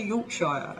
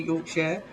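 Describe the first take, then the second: First: "Yorkshire" ending SHY-er; less usual pronunciation. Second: "Yorkshire" ending "sheer"; light YORK-sheer "Yorkshire"; usual English pronunciation. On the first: English speaker conceding some people's version, "Yorkshire" as york-SHY-er. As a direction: rhyme the end of "Yorkshire" with "fire". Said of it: "some people do say Yorkshire". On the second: English speaker giving the usual version, "Yorkshire" as YORK-sheer. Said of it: "it's usually Yorkshire". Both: Shown as a demonstration.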